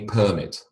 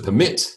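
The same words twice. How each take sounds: First: The stress is on the first syllable. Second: The stress is on the second syllable. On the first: It is a noun. "a permit" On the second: It is a verb. "to permit"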